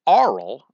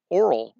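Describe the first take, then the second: First: "oral" said as AR-ul, loud and set apart; distinct pronunciation. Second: Said in the usual way. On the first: Shown as a demonstration. Lecturer telling two sound-alike words apart, "oral" stressed as AH-rul. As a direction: open AH at the start of "oral", punched out. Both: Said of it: "which is a different word".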